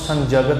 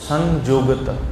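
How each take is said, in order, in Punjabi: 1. ਵਿਚਕਾਰਲਾ ਵਿਅੰਜਨ j ਵਰਗਾ ਲੱਗਦਾ ਹੈ। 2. ਵਿਚਕਾਰਲਾ ਵਿਅੰਜਨ y ਵਰਗਾ ਲੱਗਦਾ ਹੈ।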